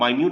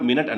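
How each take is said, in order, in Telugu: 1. మొదటి అక్షరం 'my' లాగా వినిపిస్తుంది. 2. మొదటి అక్షరం 'min' లాగా వినిపిస్తుంది. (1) "మైన్యూట్ లాగా పలికితే" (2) "దీన్ని మనం మినిట్ అంటాం"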